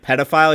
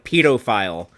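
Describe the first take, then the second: First: The word is said the American way. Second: The word is said the British way. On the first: "instead of saying like" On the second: "the British pronunciation"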